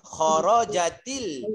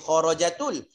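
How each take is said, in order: First: The linking vowel after kharajat is i. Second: The linking vowel after kharajat is u. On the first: The speaker calls it right. "dia lebih dekat dengan baris bawah" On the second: The speaker calls it wrong. "Dia tak akan boleh jadi kharajatul"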